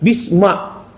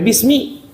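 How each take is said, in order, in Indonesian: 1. Kata ini diakhiri dengan vokal 'a'. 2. Kata ini diakhiri dengan vokal 'i'. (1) "jadi patah, bisma" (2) "harusnya bismi"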